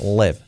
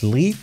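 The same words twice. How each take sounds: First: The vowel sounds like a Spanish E. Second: The vowel sounds like a Spanish I. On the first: The speaker calls it right. "la I como una E" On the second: The speaker calls it wrong. "No es live"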